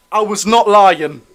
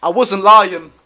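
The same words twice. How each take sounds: First: Slow, with not stressed on its own. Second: Said in the usual way. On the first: Shown as a demonstration. To viewers, proving the shirt is real, stressing not. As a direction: spell out not, slowly and firmly.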